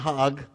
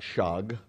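First: It begins with a plain h sound. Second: It begins with a soft sh sound. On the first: "Not Hag" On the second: "not Shag"

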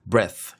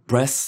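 First: It ends with a th sound, tongue between teeth. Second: It ends with an s sound, like breast. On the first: The speaker calls it right. "혀 위에 얹히고 낀 상태에 중간에 이렇게 해서 그 다음에 breath 이렇게 하셔야 됩니다" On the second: The speaker calls it wrong. "이렇게 안 하면은 breath 이렇게 하면은 가슴처럼 들려요"

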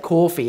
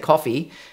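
First: It is said in a New York accent. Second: It is said in a non-American accent. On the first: "they'll say coffee" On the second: "Whereas we say coffee"

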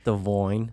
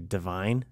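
First: The stressed vowel sounds like 'oy'. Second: The stressed vowel sounds like 'eye'. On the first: The speaker calls it wrong. "It's like a Bostoner or something" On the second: The speaker calls it right. "I was trying to say divine"

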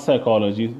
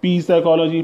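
First: The word begins with an s sound. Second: The word begins with a p sound. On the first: The speaker calls it right. "P is silent" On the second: The speaker calls it wrong. "that is wrong pronunciation"

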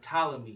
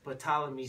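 First: The initial P sound is silent. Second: The initial P sound is pronounced.

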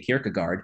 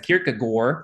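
First: The name is said in a plain, ordinary way. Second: The name is said in an affected, showy way. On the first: The speaker is just talking normally. "just read it as a normal person" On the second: The speaker wants to sound sophisticated. "if I wanted to be pretentious"

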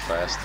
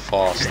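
First: It is said with an American vowel sound. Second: It is said with a British vowel sound. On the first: "in America it's fast" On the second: "In the UK they pronounce it fast"

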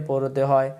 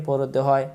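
Both takes have the same delivery.

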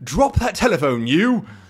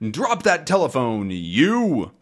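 First: It is said in a British accent. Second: It is said in the speaker's plain accent. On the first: The speaker calls it right. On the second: The speaker calls it wrong.

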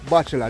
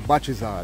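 First: It is said as standard 'bachelor'. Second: It is said with a 'zal' ending, 'bachizal'. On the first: "they don't say bachelor" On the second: "they say bachizal"

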